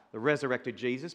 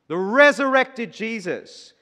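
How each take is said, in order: First: Said in the usual way. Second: Resurrected stretched slowly and raised up; a proclaiming aside in the middle of the verse; emphatic aside. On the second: Acted. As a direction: lean hard on "resurrected", slow and higher. Aside stressed in verse reading.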